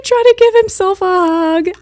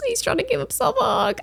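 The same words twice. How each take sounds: First: High, loud heartbroken wail; distressed wail. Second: Very high, soft little whimper; tearful squeak. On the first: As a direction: cry it out, stretching the last word. Overcome retelling monkey hugging himself. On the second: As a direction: squeeze it out small and high, near tears. Repeats it, close to tears. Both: Real, not acted.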